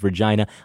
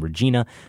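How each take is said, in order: First: The middle syllable sounds like 'jai'. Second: The middle syllable sounds like 'jee'. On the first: It is the Saskatchewan city. The speaker calls it right. "The I is pronounced I, not E. It rhymes with vagina" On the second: It is the woman's name. The speaker calls it wrong. "isn't pronounced like the woman's name, Regina"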